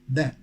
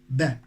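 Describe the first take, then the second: First: It is the pronunciation used before consonant sounds. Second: It is the pronunciation used before consonant sounds.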